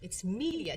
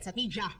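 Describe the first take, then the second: First: The middle consonant is a clear d sound. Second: The middle consonant is a j sound. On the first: The speaker calls it right. "It's letter D" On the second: The speaker calls it wrong. "It's not J"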